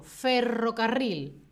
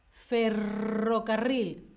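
First: Said in the usual way. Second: "Ferrocarril" slow, rr rolled clearly; careful trill. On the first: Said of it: "Yo digo". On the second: Shown as a demonstration. Teacher models the word slowly for learners, careful trill. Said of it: "Yo digo, ferrocarril".

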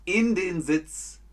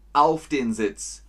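First: „in“ hoch und langsam betont; stress on IN. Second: „auf“ laut und langsam betont; stress on AUF. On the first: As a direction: slowly stress „in“ in „in den Sitz“. („in den Sitz“, langsam, „in“ betont) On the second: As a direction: slowly stress „auf“ in „auf den Sitz“. („auf den Sitz“, langsam, „auf“ betont) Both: Shown as a demonstration. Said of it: "Beides ist richtig".

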